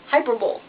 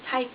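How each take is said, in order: First: The word ends with a 'bowl' sound. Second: The word ends with a 'lee' sound. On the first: The speaker calls it wrong. "it looks like hyperbole" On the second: The speaker calls it right. "but it's hyperbole"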